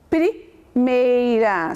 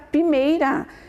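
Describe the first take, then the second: First: The p is followed by an r sound. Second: The p is followed directly by the vowel. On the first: The speaker calls it right. "eu tenho que usar o P e o R para ter o som do pr" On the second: The speaker calls it wrong. "Se eu não colocar o R, fica primeira, né? Fica errado"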